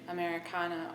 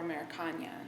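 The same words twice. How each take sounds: First: The last consonant is a plain n sound. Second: The last consonant is a palatal ny sound. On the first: "an N one second" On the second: "an Enye another second"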